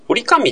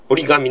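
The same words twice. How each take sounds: First: 折り紙 said "ori-kami" with a hard voiceless k; 折り紙 with an unvoiced k, as the awkward form; 折り紙 pronounced ori-kami; unnatural voiceless k. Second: 折り紙 with a voiced g, as the easy form; 折り紙 pronounced ori-gami; natural voiced g. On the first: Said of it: "折り紙って言いにくいんだよ". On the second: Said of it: "折り紙の方が言いやすい". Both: Shown as a demonstration.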